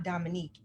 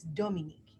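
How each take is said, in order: First: Dominique said the American English way; the mother quoting the wrong way, Dominique in American English; wrong American pronunciation. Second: Dominique said the French way, with a crisp d and ending "-nik"; the mother correcting, Dominique in French; correct French pronunciation. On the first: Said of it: "it's Dominique". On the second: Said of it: "Your name is not Dominique". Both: Retold or imitated.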